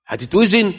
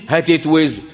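First: Rising question, higher; هتتوزن asked with a high rising tune. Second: Said in the usual way. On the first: Shown as a demonstration. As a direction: ask it back, incredulous. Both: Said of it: "question then answer".

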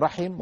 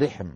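First: رحم with open a, then i; dialect form "rahim". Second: رحم with short i, no vowel after h; dialect form "rihm". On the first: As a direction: say رحم as "RA-him", two syllables. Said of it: "من العرب من يقول رحم". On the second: Teacher shows the other dialect's form, "rihm". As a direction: say رحم as "RIHM", one syllable. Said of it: "ومن العرب من يقول رحم". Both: Shown as a demonstration.

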